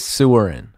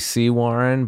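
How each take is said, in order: First: The name begins with the word 'sewer'. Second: The name begins with the word 'sea'. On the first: "but if you look at it, it says Sewerin" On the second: "It was technically Sea Warren"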